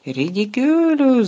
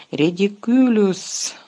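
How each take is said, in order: First: High, loud, slow roar of the spell. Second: Slow, offhand, unbothered spell; lazily. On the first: Ron facing the giant spider, roaring the spell. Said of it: "заревів Рон". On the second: Lupin facing the silver orb, casting lazily. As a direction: toss off the spell as if bored. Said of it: "ліниво вимовив Люпен". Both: Acted.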